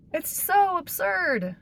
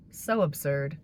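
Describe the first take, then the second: First: High, slow, disbelieving; incredulous. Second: Said in the usual way. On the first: Real, not acted. Disbelief at the investigation.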